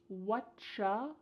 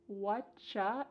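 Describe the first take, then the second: Both takes have the same delivery.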